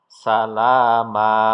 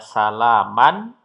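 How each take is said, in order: First: The word ends on a lengthened a vowel. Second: The word ends with an n sound. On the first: The reader stops at this word. "Ma-nya dua harokat" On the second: The reading continues without stopping. "Asalnya salaman"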